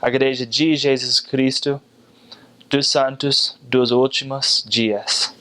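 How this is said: It is said in a Brazilian Portuguese accent. "with my best Brazilian accent"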